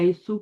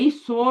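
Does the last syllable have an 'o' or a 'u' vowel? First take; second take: u; o. First: The last syllable has a 'u' vowel. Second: The last syllable has an 'o' vowel. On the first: The speaker calls it right. "ही सू पढ़ना है, पेश के साथ पढ़ना है" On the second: The speaker calls it wrong. "ही सो नहीं पढ़ना"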